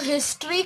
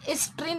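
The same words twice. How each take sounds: First: The word begins with an audible h sound. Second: The word begins without any h sound. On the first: The speaker calls it right. "हिस्ट्री कहेंगे हम लोग" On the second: The speaker calls it wrong. "हिस्ट्री नहीं कहते generally"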